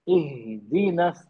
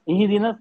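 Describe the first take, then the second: First: The h sound is held, taking time. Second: The h sound is rushed through quickly. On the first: The speaker calls it right. "इहदीनस ऐसे पढ़ते हैं, ये सही तरीका" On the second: The speaker calls it wrong. "ये गलत हो जाएगा। हमने जल्दी पढ़ दिया"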